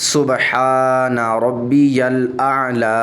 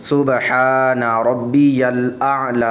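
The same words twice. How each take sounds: No difference in how they are said.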